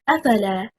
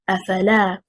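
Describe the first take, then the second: First: The stress is on the first syllable. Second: The stress is on the third syllable. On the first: It becomes one word. The speaker calls it wrong. "If we stress on the first حركة and say أفلا" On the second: It is made of three separate words. The speaker calls it right. "The correct performance is أفلا, stressing on حركة اللام"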